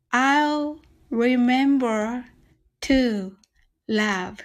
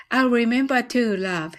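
First: Very slow, each word drawn out; slow demo. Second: At natural speed, one smooth line; faster take. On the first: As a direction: stretch every word for learners. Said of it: "一緒にゆっくり練習してみましょう". (ゆっくり一語ずつ) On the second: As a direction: say it straight through at normal pace. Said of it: "次は早く言ってみましょう". (自然な速さで一息に) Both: Shown as a demonstration.

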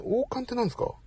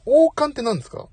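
First: A soft, half-to-himself "王冠ってなんですか？" trailing off; quiet puzzled question. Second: "王冠ってなんですか？" asked again higher and louder, stressing 王; louder repeated question. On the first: Streamer quietly wondering aloud at a chat comment, soft puzzled question. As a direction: mutter "王冠ってなんですか？" quietly, falling at the end. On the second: Streamer asking viewers again, louder and higher. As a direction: call the question "王冠ってなんですか？" out to chat, pitched up and louder. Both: Real, not acted.

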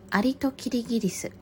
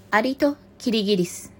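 First: Said in the usual way. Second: Measured, projected title announcement; storybook title read-out. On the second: Real, not acted. Reader opening the last fable, storybook title read-out. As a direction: present the title to the listeners.

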